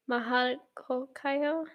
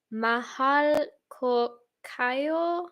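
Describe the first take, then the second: First: MAHAL KO KAYO softer and still slow, rising on KAYO; unsure pronunciation retry. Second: MAHAL KO KAYO sounded out very slowly, word by word; careful pronunciation attempt. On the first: Streamer retrying the Filipino phrase, unsure, softer with a questioning end. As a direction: try "Mahal ko kayo" softly, lifting "kayo" like a question. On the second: Streamer trying a Filipino phrase for viewers, very slow and careful. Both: Shown as a demonstration. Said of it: "I can't do it".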